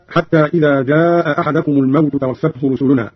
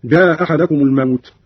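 First: Said in the usual way. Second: جاء أحدكم run together as "jaa-ahadakum"; only one glottal stop in جاء أحدكم; first hamza dropped. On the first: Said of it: "قرأ قالون بإسقاط الهمزة الأولى". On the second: Shown as a demonstration. Teacher demonstrating Qalun, جاء أحدكم with one hamza, "jaa-ahadakum". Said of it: "بإسقاط الهمزة الأولى هكذا".

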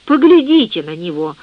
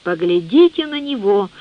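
First: A sudden lively outburst, a touch louder; энергичный возглас; energetic exclamation. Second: Drawn out, mildly awed; медлительное изумление; slow amazement. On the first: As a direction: burst out, proud and energetic. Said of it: "вдруг энергично воскликнул он". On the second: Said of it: "с медлительным изумлением". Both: A narrator's reading.

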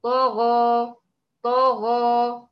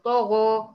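First: طغى drawn out very slowly and loud; طغى with a close jaw and flat lips; correct demo. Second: طغى said with slightly rounded lips, wrong; طغى with a hint of lip rounding; wrong ishmam demo. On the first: Teacher giving the final correct reading. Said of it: "يبقى". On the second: Teacher showing a subtle error. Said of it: "لا، ده غلط". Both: Shown as a demonstration.

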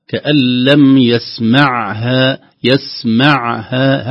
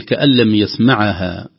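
First: "يسمعها" very slowly, with a firm silent ain; clear sukun. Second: "كأن لم يسمعها" with the sukun of the ain slurred; mock error on "يسمعها"; wrong, no clear sukun. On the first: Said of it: "هكذا سكون". ("يسمعها" ببطء مع سكون واضح للعين) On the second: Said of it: "خوفا من نقول". (خطأ في سكون العين في "يسمعها") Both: Shown as a demonstration.

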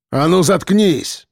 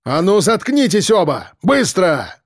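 First: Guard's bark. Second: Higher, harsh guard's command; mild guard's bark; barked order. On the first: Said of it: "рявкнул старший". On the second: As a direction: shut the whole barracks up. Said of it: "рявкнул на весь барак". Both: A narrator's reading.

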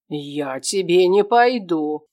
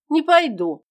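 First: Slow, louder, menacing father; father mocking his son's refusal, menacing; threatening retort. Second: Put-on high, loud boy's shout; boy refusing his father, shouting; defiant refusal. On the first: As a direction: drag it out as a threat. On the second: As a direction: yell it back in defiance.

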